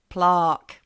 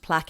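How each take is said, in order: First: It is said with the Australian pronunciation. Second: It is said with the usual international pronunciation. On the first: "plaque is now plaque" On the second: "should be pronounced plaque in all the countries"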